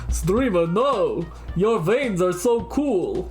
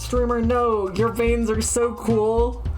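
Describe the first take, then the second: First: It is said in a put-on vampire voice. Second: It is said in a normal voice.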